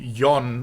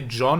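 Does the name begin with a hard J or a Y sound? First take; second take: Y sound; hard J. First: It begins with a soft Y sound. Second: It begins with a hard J sound. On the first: The speaker calls it right. "it should be Yon" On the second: The speaker calls it wrong. "pronounced as a hard J instead of Y"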